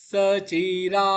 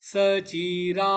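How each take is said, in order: Both takes have the same delivery.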